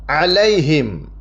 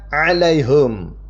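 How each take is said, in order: First: The vowel after the h is i. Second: The vowel after the h is u. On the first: "hanya di kasroh" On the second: "hanya itu di domah"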